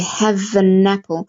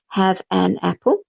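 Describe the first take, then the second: First: The words run together, with the n linking. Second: The words are said separately, without linking. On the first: The speaker calls it right. "when you're speaking fluently or, and fluidly, you'd say" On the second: The speaker calls it wrong. "So you won't say have an apple"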